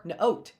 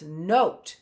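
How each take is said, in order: First: "note" split as nuh-oat; two-piece "note", not joined up; unblended word. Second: "note" as one smooth word; "note" said whole, stretched, no break; blended word. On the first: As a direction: break "note" after the N. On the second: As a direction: join all the sounds of "note". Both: Shown as a demonstration. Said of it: "That's blending".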